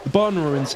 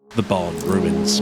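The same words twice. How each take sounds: First: The barn ruins said much higher; higher emphatic restart. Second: Slowly, word by word; slow drawn out. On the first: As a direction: lift the barn ruins up high. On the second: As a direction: stretch out the barn ruins slowly. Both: Shown as a demonstration.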